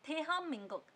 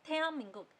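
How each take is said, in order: No difference in how they are said.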